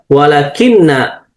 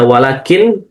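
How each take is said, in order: First: The word ends with an added na syllable. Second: The word ends on a bare n sound. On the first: The particle governs the following noun. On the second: The particle has no grammatical effect. "dengan sukun"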